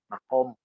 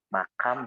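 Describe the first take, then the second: First: It is said with a deep back q sound. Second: It is said with a plain k and a. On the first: It is the original Arabic form. "di Arabnya sendiri M A eh, Kop Mim" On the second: It is the form borrowed into Indonesian. "di kita mah ditulisnya itu M A K A M"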